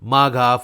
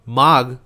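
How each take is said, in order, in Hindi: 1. शब्द के अंत में एक जुड़ा हुआ 'a' स्वर है। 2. शब्द का अंत एक व्यंजन ध्वनि पर होता है। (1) "इंग्लिश में लिखा है ना, इसीलिए आगे लास्ट में ए लगा रहा है" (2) "जो हिंदी वाला प्रोनाउंसिएशन है"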